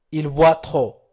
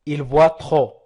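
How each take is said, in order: Both takes have the same delivery.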